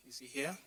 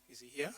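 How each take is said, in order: Both takes have the same delivery.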